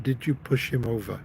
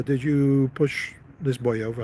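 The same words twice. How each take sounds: First: Aggressive. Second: Said in the usual way. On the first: Retold or imitated. Father looked at his son, understated aggressive voice. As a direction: imitate a father's restrained menace. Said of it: "It's a very aggressive voice". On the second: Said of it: "He said".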